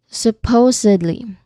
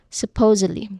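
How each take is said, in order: First: The word is said slowly and carefully. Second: The word is said at natural speed. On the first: "we'll say it slow"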